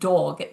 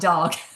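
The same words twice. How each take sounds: First: The word is said with a British vowel. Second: The word is said with an American vowel. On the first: "I've been hanging out with London people. Did you just hear how dog came out of my mouth? I said dog" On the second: "not dog"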